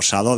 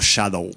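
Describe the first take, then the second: First: It starts with a plain s sound, Spanish style. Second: It starts with a sh sound, English style. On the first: It sounds like a word linked to the whip. "escrito en castellano, pues queda como Shadow del latigazo" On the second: It sounds like the English word for shadow. "pronunciado en inglés queda como shadow"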